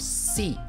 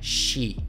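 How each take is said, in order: First: The syllable starts with a plain s sound. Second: The syllable starts with a sh sound. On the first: The speaker calls it wrong. "Não tem o som si" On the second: The speaker calls it right. "No japonês o som é shi"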